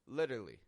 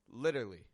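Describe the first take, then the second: First: A syllable from the middle is left out. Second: The same.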